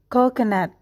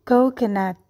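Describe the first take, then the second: The two takes are said the same way.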